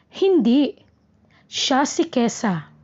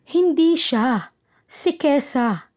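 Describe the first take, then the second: First: There is a pause right after hindi. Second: There is a pause right after siya. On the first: The person being discussed is Kesa. "hinto pagkatapos ng hindi" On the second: Not that person, but Kesa, is meant. "hinto pagkatapos ng siya"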